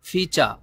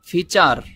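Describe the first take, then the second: First: The final r is not pronounced at all. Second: The final r is a Bengali tapped r. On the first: "এই আরটাকে silent রাখে, এটাও right" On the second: "বাঙালিদের মতো উচ্চারণ করেন"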